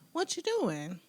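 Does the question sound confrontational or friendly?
friendly. It is asked in a friendly, casual tone. It is a simple request for information.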